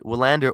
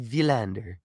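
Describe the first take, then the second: First: The name begins with a W sound. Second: The name begins with a soft V sound. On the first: The speaker calls it wrong. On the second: The speaker calls it right.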